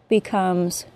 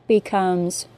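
Both takes have the same delivery.

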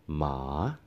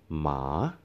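First: The pitch dips down, then rises at the end. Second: The pitch dips down, then rises at the end.

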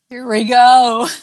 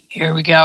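First: It is said in a moaning voice. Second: It is said in a husky voice.

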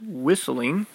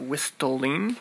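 First: The T sound is left silent. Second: The T sound is clearly pronounced. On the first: The speaker calls it right. "It's actually pronounced whistling, even though there is a T. That's called a silent letter" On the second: The speaker calls it wrong. "not whistling"

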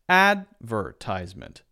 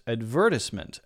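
First: The stress falls on the first syllable. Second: The stress falls on the second syllable. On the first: "the first syllable is stressed" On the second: "You might hear in British English more often a stress on the second syllable"

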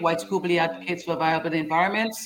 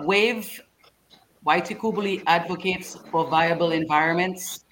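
First: It is said at a normal, quicker pace. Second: It is said more slowly and carefully.

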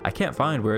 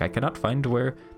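First: It is said in the speaker's normal voice. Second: It is said in a put-on foreign accent.

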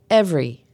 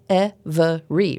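First: The word is said with two syllables. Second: The word is said with three syllables. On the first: The speaker calls it right. "it's pronounced with two" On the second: The speaker calls it wrong. "looks like it should have three syllables"

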